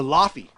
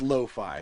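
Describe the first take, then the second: First: The name is said like 'laffy'. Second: The name is said like 'lo-fi'. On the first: The speaker calls it wrong. "I used to call her Laffy before" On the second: The speaker calls it right. "it's lo-fi"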